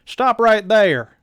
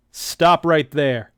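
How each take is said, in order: First: Louder, higher, slow barked command; tough sergeant voice. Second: Loud slow command, not yet in the right voice; a rough first take on the tough guy; first try at the sergeant. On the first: D J halting the creeps, loud higher sergeant bark. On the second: Reader trying out D J's voice, loud slow command. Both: Shown as a demonstration. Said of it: "let me get that voice right".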